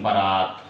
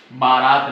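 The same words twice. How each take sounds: First: बारात said as buh-RAAT, short first vowel. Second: बारात with long aa in the first syllable; wrong long A. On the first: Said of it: "ये सही expression है". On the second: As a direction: stretch the first vowel of बारात to baa. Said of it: "बारात नहीं". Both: Shown as a demonstration.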